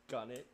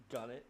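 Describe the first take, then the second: No difference in how they are said.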